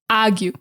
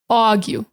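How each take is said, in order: First: Said in a Boston accent, R replaced by ah. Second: Said in a New York accent with an aw vowel. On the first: "get rid of the R and replace it with ah" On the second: "New York does more of a A W"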